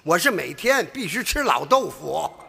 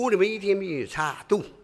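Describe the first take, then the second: First: The Chinese is spoken with standard native pronunciation. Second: The Chinese is spoken with a heavy foreign accent.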